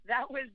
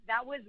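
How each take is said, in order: Both takes have the same delivery.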